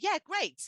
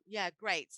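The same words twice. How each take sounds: First: It is said in a bright, enthusiastic tone. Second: It is said in a flat, reluctant tone. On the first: The speaker is happy to go for pizza. "now Gabby's like, woohoo, great, we're going to go for pizza" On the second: The speaker does not really want to go. "she doesn't really want to go"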